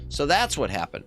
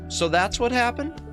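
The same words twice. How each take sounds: First: The voice falls at the end, like a statement. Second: The voice rises at the end, like a question. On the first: It states that this is what happened. The speaker calls it right. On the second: It asks whether that is what happened. The speaker calls it wrong.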